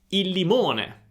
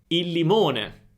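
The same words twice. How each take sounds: No difference in how they are said.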